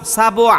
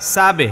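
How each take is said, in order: First: The echo after b sounds like o. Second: The echo after b sounds like e. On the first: The speaker calls it wrong. "আমি যদি বলি এইরকম সাবো সাবো আ, তাইলে ভুল হলো" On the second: The speaker calls it right. "সাবো হয় না, সাবে সাবে"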